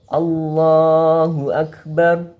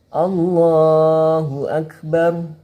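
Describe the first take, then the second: No difference in how they are said.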